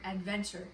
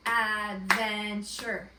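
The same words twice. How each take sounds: First: Said in the usual way. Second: Adventure slowed right down into three loud clapped beats, ad-ven-ture; clapped syllables. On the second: Shown as a demonstration. Teacher leads the class clapping out Adventure, slow and loud. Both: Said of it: "Let's clap out adventure".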